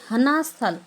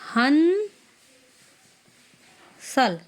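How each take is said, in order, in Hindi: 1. पहला शब्द दो अक्षर में बोला जाता है। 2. पहला शब्द एक अक्षर में बोला जाता है। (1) "हम ये नहीं बोलेंगे, गलत हो जाएगा" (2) "हम इसको बोलेंगे हन साल"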